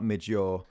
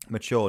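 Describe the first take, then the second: First: The word is said with a j-like middle sound. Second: The word is said with a ch-like middle sound. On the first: The speaker calls it wrong. "not mid-jure" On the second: The speaker calls it right. "Mature, not mid-jure"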